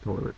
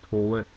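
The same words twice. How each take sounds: First: It is said with a standard American accent. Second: It is said with a local Maryland accent. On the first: "I say toilet" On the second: "but she says toilet"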